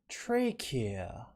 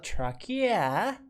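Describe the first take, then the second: First: It is said in an English-style accent. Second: It is said in a Hokkien-influenced accent. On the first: "let me read this in a more uh, English style" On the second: "Rather than a Hokkien style"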